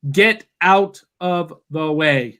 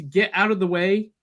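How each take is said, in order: First: Slow, spaced-out "get out of the way"; "get out of the way" said slowly, every word weighted; emphatic advice. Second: Said in the usual way. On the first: Shown as a demonstration. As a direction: stretch each word of "get out of the way". Repeats it as the punchline.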